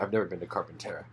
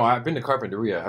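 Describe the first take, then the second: First: Carpintera ending TERR-uh, quick and low; fast, softer Carpintera with stressed TERR; joking mispronunciation. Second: Said in the usual way. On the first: Shown as a demonstration. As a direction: toss off Carpintera without the i. Contrasting the two place pronunciations.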